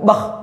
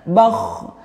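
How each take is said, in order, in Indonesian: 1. Konsonan akhir ditekan keras dan dihentikan singkat. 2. Konsonan akhir mengalir lembut dengan udara yang terus keluar.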